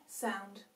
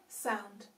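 No difference in how they are said.

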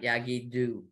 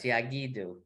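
First: The stress is on the last syllable. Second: The stress is on the next-to-last syllable. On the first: The speaker calls it wrong. "not Yigidu, which it would be otherwise" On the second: The speaker calls it right. "moves the accent from the last syllable to the next to the last"

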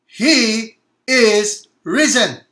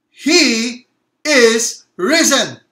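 First: It is said with modest energy. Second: It is said with lively excitement.

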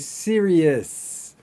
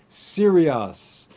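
First: The final syllable sounds like 'is'. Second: The final syllable sounds like 'us'. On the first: The speaker calls it right. "But we actually say serious. ... it's an is" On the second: The speaker calls it wrong. "Many students will pronounce the following words slightly wrong"

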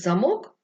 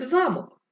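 First: The stress is on the last syllable. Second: The stress is on the first syllable. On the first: "перестрибнув з останнього складу на перший. Зник замок" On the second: "а виник замок"

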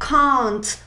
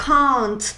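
First: It is said with a British accent. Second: The same.

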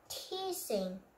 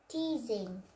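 First: The middle consonant is a hissing s sound. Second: The middle consonant is a buzzing z sound. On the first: The speaker calls it wrong. "Not teasing" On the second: The speaker calls it right. "We just make S is Z"

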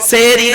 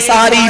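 First: The word begins with 'se' and has two syllables. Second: The word begins with 'sa' and has three syllables. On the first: The speaker calls it wrong. "সেহরি নয়।" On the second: The speaker calls it right. "সাহারি লেখে।"

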